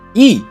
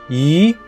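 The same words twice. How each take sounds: First: The pitch falls sharply from high to low. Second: The pitch rises from mid to high. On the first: "Last tone is E" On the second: "The second tone is an up"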